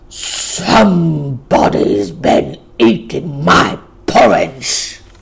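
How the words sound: It is said in a deep, gruff growl. The biggest bear is speaking. "growled in a big, gruff voice"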